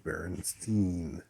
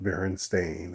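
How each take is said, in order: First: The last part does not sound like stain. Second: The last part sounds like the word stain. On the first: This is the version the speaker remembers. The speaker calls it right. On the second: This is the version the speaker says it never was. The speaker calls it wrong.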